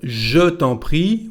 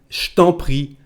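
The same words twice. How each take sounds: First: The vowel of je is clearly pronounced. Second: The vowel of je is dropped entirely. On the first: "Instead of je t'en prie" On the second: "we say something like je t'en prie. The letter he, e here disappears"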